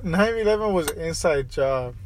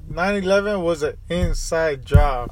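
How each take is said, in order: First: Said in the usual way. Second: Slower, leaning on eleven; slow insistent restatement. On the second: Real, not acted. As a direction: insist on it, word by word.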